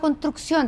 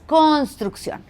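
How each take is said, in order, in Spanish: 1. Se omiten algunas consonantes de la palabra. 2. Se pronuncian todas las consonantes de la palabra. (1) "Nos comemos las consonantes" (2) "no, es construcción"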